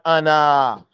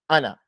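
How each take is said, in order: First: A vowel in the word is drawn out. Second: No vowel in the word is drawn out. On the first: The speaker calls it wrong. "It's not Anna. There's no elongation to it" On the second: The speaker calls it right. "That's how you say it in Arabic. You don't elongate it"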